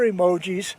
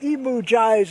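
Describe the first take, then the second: First: The word ends with an 'ee' sound. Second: The word ends with an 'eye' sound. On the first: The speaker calls it right. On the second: The speaker calls it wrong.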